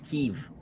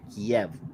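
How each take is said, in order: First: The city name has its newer, local pronunciation. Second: The city name has its older, school-taught pronunciation. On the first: The speaker calls it right. "apparently we've been saying it wrong this whole time. It's" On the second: The speaker calls it wrong. "that's how I was taught to say it fifty years ago in school"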